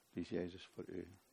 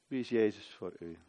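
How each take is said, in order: First: Much softer and lower, searching; soft repeat. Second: Said in the usual way. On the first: Acted. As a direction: let the question sink in quietly. Question repeated softly.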